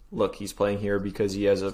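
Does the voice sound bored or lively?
bored. The words are read in a flat, bored tone. The speaker calls it right.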